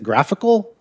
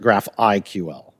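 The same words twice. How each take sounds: First: GRAPHICAL said as one word, like the adjective; run-together pronunciation. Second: "graph I Q L" with I, Q, L as separate letters; spelled-out pronunciation. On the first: Asking seasoned GraphQL people how it is pronounced, "graphical" as one word. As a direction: say "graphical" as an ordinary single word. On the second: Asking seasoned GraphQL people how it is pronounced, "graph I Q L" letter by letter. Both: Shown as a demonstration. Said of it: "I don't know how you pronounce this".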